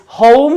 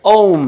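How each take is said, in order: First: The word begins with an audible h sound. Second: The word begins without any h sound. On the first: "When it is home" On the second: "It is om"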